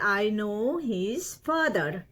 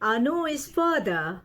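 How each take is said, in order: First: Each word is said separately and fully. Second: The words are run together and reduced.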